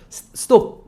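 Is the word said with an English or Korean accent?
Korean. It is said with Korean syllables, an added vowel. "우리는 보통 ... 스톱"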